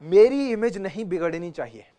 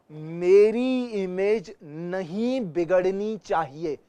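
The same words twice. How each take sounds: First: Said in the usual way. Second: Very slow, drawn-out syllables; slowed for clarity. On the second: Shown as a demonstration. Teacher demonstrating clear speech, very slow. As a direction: stretch each word for clean articulation. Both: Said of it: "तो इसे slow कर देते हैं".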